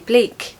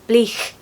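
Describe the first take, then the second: First: It ends with a plain k sound. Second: It ends with a breathy, fricative ch sound.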